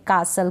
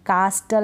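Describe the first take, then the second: First: "कासल" with a silent T; correct pronunciation. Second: "कास्टल" with the T sounded; mispronounced "कास्टल", T not silent; wrong pronunciation. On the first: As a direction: drop the T in "कासल". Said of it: "correct pronunciation". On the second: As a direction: say the T fully in "कास्टल". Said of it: "कास्टल नहीं पढ़ेंगे". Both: Shown as a demonstration.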